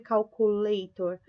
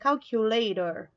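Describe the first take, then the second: First: The u is said like a Portuguese vowel. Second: The u is said like an English vowel. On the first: The speaker calls it wrong. "Eu não vou ler calculator" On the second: The speaker calls it right. "o U em inglês, ele faz som de U. Então, é calculator"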